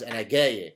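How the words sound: The word has a hard 'g' sound.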